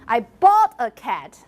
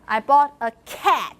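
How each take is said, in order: First: The word bought is stressed. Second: The word cat is stressed. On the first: The cat was paid for, not stolen. "not that I, I, I stole a cat" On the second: It was a cat, not some other animal. "not a dog"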